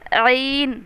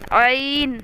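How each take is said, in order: No difference in how they are said.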